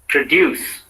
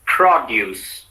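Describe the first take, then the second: First: "produce" as pruh-DYOOS; weak PRO in produce, stress on DUCE; stress on second syllable. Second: "produce" as PROD-yoos; strong PROD, falling through produce; stress on first syllable. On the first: Teacher models the verb for repetition, produce stressed on DUCE. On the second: Teacher models the noun for repetition, produce stressed on PROD. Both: Shown as a demonstration. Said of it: "said in two different ways".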